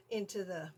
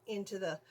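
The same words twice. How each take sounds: The two takes are said the same way.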